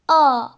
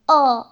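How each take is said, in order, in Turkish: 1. Ünlü a ile o arasında duyuluyor. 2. Ünlü a ile o arasında duyuluyor.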